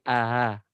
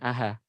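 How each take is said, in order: First: The middle sound is a softened, eased glottal catch. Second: The middle sound is a full, clear h. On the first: The speaker calls it right. "tapi aha" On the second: The speaker calls it wrong. "Bukan bukan aha"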